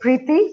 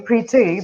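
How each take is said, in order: First: The name is said the Indian way. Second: The name is said the UK way.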